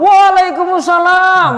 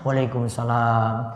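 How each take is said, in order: First: It sounds cheerful and eager. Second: It sounds sulky and gloomy.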